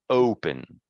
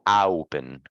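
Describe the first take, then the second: First: The first vowel is an 'oh' sound. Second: The first vowel is an 'ow' sound. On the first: The speaker calls it right. "This word is open" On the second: The speaker calls it wrong.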